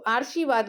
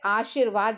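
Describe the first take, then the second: First: The r sound comes before the sh sound. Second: The r sound comes after the sh sound. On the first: The speaker calls it wrong. "तो आर्शीवाद गलत है।" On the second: The speaker calls it right. "वो सही होता है"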